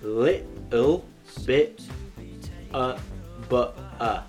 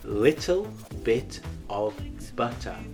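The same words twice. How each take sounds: First: The T sounds are dropped as glottal stops. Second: The T sounds are fully pronounced.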